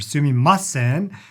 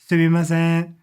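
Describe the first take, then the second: First: One syllable is stressed more than the others. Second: All syllables are said on an even, flat level. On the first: The speaker calls it wrong. "So it's not sumimasen" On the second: The speaker calls it right. "Japanese language is considered beautiful when it's monotone"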